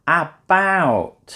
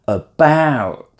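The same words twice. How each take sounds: First: The first vowel is a short a sound. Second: The first vowel is a weak uh sound. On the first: The speaker calls it wrong. "If it was the shorter version, it might be a" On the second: The speaker calls it right. "It's the uh sound"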